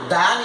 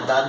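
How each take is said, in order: First: The word has a full, clear vowel. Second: The word has a reduced, weak vowel. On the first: "is the strong form" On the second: "is the weak form"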